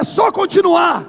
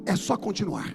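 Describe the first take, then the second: First: It is said loudly, with energy. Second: It is said in a flat, dull way.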